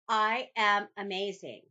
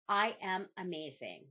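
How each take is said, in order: First: It is said with stronger, more forceful conviction. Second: It is said in a plain, calm voice. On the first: "say it with a little more conviction than the last time" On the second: "Repeat after me"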